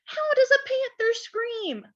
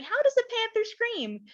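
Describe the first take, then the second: First: Put-on high, eager child's voice; little Laura asking. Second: High, curious voice asking how a panther screams; curious question. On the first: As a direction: ask it like an eager little girl. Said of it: "Laura asked". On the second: Retold or imitated. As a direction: ask it like a wondering child. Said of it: "some of you might be wondering".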